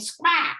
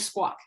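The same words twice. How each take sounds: First: It is said in a drawn-out Texas drawl. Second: It is said with an East Coast pronunciation. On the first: "it became squawk, a Texas drawl" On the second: "folks on the East Coast ... they're saying squawk"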